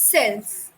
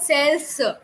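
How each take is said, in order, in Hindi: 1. शब्द बिना किसी अतिरिक्त स्वर के साफ़ तरह से समाप्त होता है। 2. शब्द के अंत में एक अतिरिक्त स्वर ध्वनि जुड़ी है। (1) "There's no uh at the end" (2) "it's not cells"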